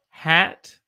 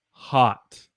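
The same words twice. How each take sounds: First: "hat" with the a of apple; careful, separate "hat"; short A. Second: "hot" with an open ah; careful, separate "hot"; short O. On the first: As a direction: clearly model "hat" with its short a. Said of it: "the hat has a short A sound". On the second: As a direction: clearly model "hot" with its short O. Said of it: "is a short O sound". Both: Shown as a demonstration.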